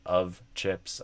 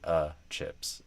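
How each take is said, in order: First: The word 'of' keeps its V sound. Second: The word 'of' is reduced to 'uh'. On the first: "Instead of of chips" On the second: "the word of sometimes literally just becomes uh"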